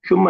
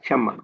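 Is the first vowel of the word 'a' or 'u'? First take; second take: u; a. First: The first vowel is a 'u' sound. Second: The first vowel is an 'a' sound. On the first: The speaker calls it wrong. "शुम्मा नहीं" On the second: The speaker calls it right.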